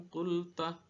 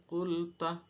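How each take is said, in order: The two takes are said the same way.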